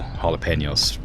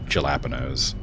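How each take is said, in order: First: It is pronounced with a Spanish sound. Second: It is pronounced with an English sound. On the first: The speaker calls it right. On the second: The speaker calls it wrong.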